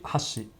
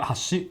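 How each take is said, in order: First: "hashi" pitched low and said softer; pitch-accent demo. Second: "hashi" with a higher, lifted pitch; pitch-accent demo. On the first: Explaining Japanese intonation to a streamer, "hashi" pitched low. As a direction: drop "hashi" down low and quiet. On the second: Explaining Japanese intonation to a streamer, "hashi" pitched high. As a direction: say "hashi" high, rising at the end. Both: Shown as a demonstration. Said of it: "there's intonations mean different things".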